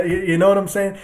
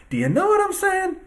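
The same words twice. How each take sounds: First: Said in the usual way. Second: Sarcastic high-pitched repeat of the question; mock high squeak. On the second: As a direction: jump way up high on know what I'm saying. Repeats rhetorical question mockingly.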